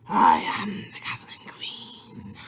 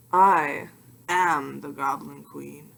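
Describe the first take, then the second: First: Slow, eerie whispered announcement; dramatic whisper. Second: Said in the usual way. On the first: Pretend. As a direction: breathe the title like a secret spell. Repeats title in a whisper.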